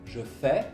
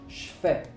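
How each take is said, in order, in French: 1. Je se prononce en entier. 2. Je se réduit à un son ch.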